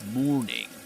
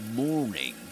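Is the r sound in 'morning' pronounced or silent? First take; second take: pronounced; pronounced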